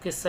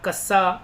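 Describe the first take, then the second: First: The first vowel is an 'i' sound. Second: The first vowel is an 'a' sound. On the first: The speaker calls it right. "इसको किस्सा ही बोलेंगे" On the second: The speaker calls it wrong. "कस्सा नहीं होता"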